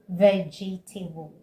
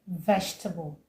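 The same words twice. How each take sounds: First: The word is said with an extra syllable. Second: The word is said with a syllable dropped. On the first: The speaker calls it wrong. "Some people say vegetable" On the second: The speaker calls it right. "the right way to say it is vegetable"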